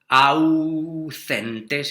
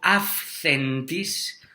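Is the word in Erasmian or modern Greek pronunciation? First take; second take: Erasmian; modern Greek. First: The word uses Erasmian pronunciation. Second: The word uses modern Greek pronunciation.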